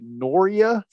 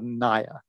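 First: The name is said with an added r, Noria. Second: The name is said as two syllables, Naya. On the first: The speaker calls it wrong. "this guy pronounced it Noria" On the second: The speaker calls it right. "called Naya. N-A-Y-A"

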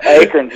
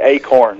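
First: It is said with a southern accent. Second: It is said with a northern accent.

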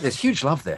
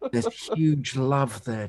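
First: It is said with lively enthusiasm. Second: It is said in an awed tone.

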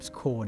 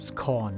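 First: The vowel rhymes with the word tone. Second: The vowel rhymes with the word gone. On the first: "มันเล่นคำระหว่างคำว่า tone กับ scone" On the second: "แล้วก็คำว่า gone กับ scone"

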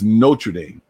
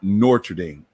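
First: The name has only one R sound. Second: The name has an extra R sound. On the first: The speaker calls it right. "But it's Notre Dame" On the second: The speaker calls it wrong. "not Notre Dame"

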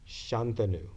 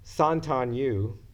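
First: The name has its native ethnic pronunciation. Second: The name has a heavily anglicized pronunciation. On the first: This is how the name is properly said. The speaker calls it right. "the correct ethnic pronunciation of my name" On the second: This is how outsiders mispronounce the name. The speaker calls it wrong. "all the way at the other end of the spectrum"

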